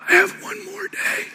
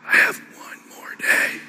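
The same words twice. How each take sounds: First: Much higher and much softer, strained; imitating a dying father's high strained voice; strained faint voice. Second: Slow breathy whisper; imitating a dying father's slow whisper. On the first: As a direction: force each word out with failing breath. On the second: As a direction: let it fade into a slow whisper. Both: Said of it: "My dad would talk like this".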